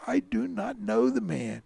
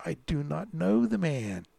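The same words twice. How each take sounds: First: Higher, vehement denial; cursing denial. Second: Firm, measured sworn denial. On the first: Cornered Peter denies Jesus to his accusers, vehemently. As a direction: swear it off with raised pitch. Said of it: "he began to curse and swear". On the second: Peter denies Jesus to bystanders, firmly swearing. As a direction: deny it as if under oath. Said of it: "he denied it with an oath". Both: A narrator's reading.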